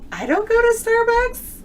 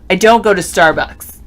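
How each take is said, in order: First: The voice rises at the end like a question. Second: The voice falls at the end like a statement.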